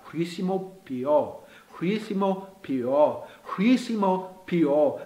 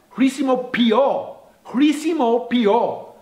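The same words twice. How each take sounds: First: Very slow, careful repetitions; devagar. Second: Said in the usual way. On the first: Shown as a demonstration. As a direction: say χρησιμοποιώ slowly, drawing out each part. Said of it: "Vou devagar". (bem devagar, com cuidado) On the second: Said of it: "Em grego é".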